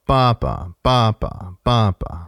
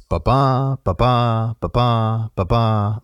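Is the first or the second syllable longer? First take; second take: first; second. First: A long syllable is followed by a short one. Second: A short syllable is followed by a long one.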